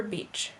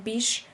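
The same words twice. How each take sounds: First: Said in the usual way. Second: "beach" said as "beesh"; slow "beach" with the CH softened to SH. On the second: Shown as a demonstration. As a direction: end "beach" on a hushing SH. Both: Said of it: "merging of S H and C H".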